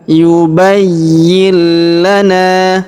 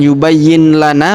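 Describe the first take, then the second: First: The n merges into a held, doubled l. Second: The n is pronounced clearly before lana. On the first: The speaker calls it right. "tapi yubayyil. Langsung masuk ke sini kita tahan dan tekan" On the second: The speaker calls it wrong. "Jadi bukan yubayyin lana, bukan ya"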